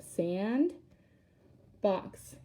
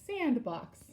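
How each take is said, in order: First: "sand, box" with a long pause in the middle; two separate syllables. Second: Said in the usual way. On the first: Shown as a demonstration. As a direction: lift "sand", wait, then say "box". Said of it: "two syllables again". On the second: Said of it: "put those two syllables together".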